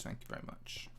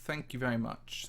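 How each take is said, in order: First: "Thank you very much" whispered with no voice. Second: Said in the usual way. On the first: Real, not acted. A whispered echo of his own thanks to viewers.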